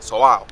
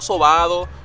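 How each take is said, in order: First: No d sound is heard before the final o. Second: A d sound is heard before the final o. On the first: The speaker calls it right. "sin la D, sobao, así" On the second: The speaker calls it wrong. "no sobado"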